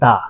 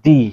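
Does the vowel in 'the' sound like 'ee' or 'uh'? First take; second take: uh; ee. First: The word ends in a short 'uh' vowel. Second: The word ends in a long 'ee' vowel. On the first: The next word starts with a consonant sound. "Consonant সাউন্ডের আগে দা, এটাকে আমরা বলি দা" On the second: The next word starts with a vowel sound. "Vowel সাউন্ডের আগে দি"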